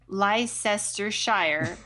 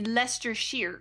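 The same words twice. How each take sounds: First: The name is said with a usual American pronunciation. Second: The name is said with a British pronunciation. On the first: The speaker calls it wrong. "I would normally say it" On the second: The speaker calls it right. "No, it would be Leicestershire"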